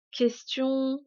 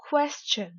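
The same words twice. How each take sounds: First: Said in the usual way. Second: "question" in English, higher on KWES; teacher's over-stressed "question", falling after KWES; exaggerated English stress. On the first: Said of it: "uniquement prononcés en français". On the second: Shown as a demonstration. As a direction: punch KWES in "question", light "chun". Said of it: "je vais délibérément exagérer".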